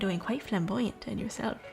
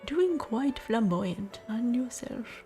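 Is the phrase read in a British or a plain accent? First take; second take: plain; British. First: It is read in an ordinary, non-British accent. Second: It is read in a put-on British accent.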